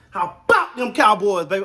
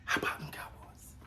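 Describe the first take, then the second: First: It is yelled loudly with excitement. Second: It is said at normal volume, not yelled.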